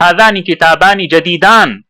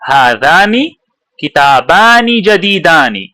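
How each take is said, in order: First: The last word ends without a final vowel. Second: The last word ends with a final vowel. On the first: This is how it is usually said. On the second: The full grammatical ending is read out.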